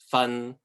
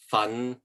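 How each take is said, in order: First: The syllable carries Cantonese tone three. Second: The syllable carries Cantonese tone five. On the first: It means to teach or accuse. "The third one" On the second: It means to work hard. "The fifth one"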